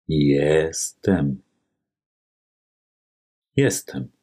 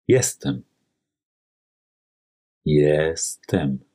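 The two takes are said the same way.

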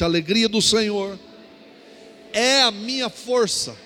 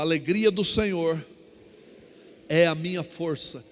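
First: It is said louder and stronger. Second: It is said at normal volume.

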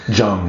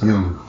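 First: The name is pronounced the anglicized way. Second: The name is pronounced the German way. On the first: The speaker calls it wrong. "It's not Jung" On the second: The speaker calls it right. "it's Jung"

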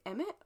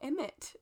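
First: The T is soft and sounds like a D. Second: The T is clearly and crisply pronounced. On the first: "soft D kind of T sound" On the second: "a really pronounced T"

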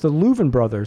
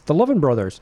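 First: The name's first syllable sounds like 'loo'. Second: The name's first syllable sounds like 'love'. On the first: The speaker calls it right. "the correct pronunciation for the Lovin' Brothers is the Louvin Brothers" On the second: The speaker calls it wrong. "I've been saying the Lovin' Brothers my whole life"

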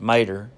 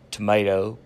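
First: The first syllable is dropped, ending in 'er'. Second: All syllables are said, ending in 'oh'.

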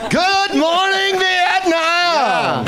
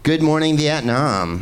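First: It is yelled loudly. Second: It is said without yelling.

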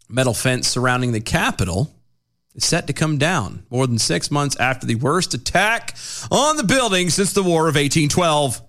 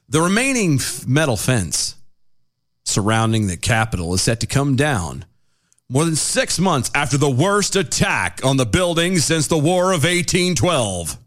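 First: It is read in a casual tone. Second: It is read in a grave tone.

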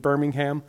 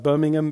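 First: It is said with a Southern American pronunciation. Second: It is said with a British pronunciation. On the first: "we here in America, especially in the South" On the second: "the British version of Birmingham"

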